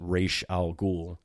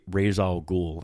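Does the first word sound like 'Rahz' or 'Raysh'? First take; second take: Raysh; Rahz. First: The first word sounds like 'Raysh'. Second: The first word sounds like 'Rahz'. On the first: The speaker calls it right. "the name is pronounced Raish al Ghul" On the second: The speaker calls it wrong. "I always pronounced his name as Ra, Ra's al Ghul"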